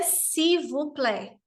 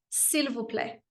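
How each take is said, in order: First: The L sound in s'il is dropped. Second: The L sound in s'il is lightly pronounced. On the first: The speaker calls it wrong. "não é s'il vous plaît" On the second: The speaker calls it right. "Existe um L aí, esse L não é mudo. É sutil"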